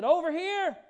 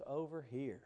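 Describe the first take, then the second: First: Loud, high shout across the woods; yelled call. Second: Softer, lower echo of the call; soft recalled call. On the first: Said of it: "he yelled". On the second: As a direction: say it gently, as a fond memory. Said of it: "when I heard those words". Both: Retold or imitated.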